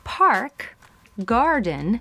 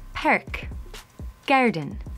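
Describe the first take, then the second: First: The vowel in 'park' is a plain open 'ah'. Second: The vowel in 'park' is fronted, close to 'perk'. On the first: "instead of park, garden" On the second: "in an Irish accent ... we would get perk, garden"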